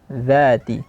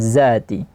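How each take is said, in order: First: It begins with a 'th' sound, tongue between teeth. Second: It begins with a plain buzzing 'z' sound. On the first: The speaker calls it right. "zal itu ujung lidah dengan uh, gigi seri" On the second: The speaker calls it wrong.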